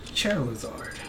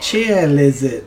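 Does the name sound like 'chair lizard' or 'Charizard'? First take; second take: Charizard; chair lizard. First: It is said as Charizard, without an added l. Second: It is said like the words chair lizard.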